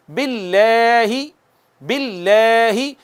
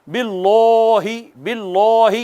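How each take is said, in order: First: باللہ slowly with thin لل, lips pulled back; light lam recitation. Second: باللہ with a heavy, dark لل and rounded lips; wrong heavy lam. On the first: Teacher leads students in repeating, light thin باللہ. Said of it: "پڑھیے گا میرے بعد". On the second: Teacher demonstrates the mistake, heavy dark باللہ. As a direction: say باللہ thick and full-mouthed, the wrong way. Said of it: "اس کو یوں نہیں کہنا". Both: Shown as a demonstration.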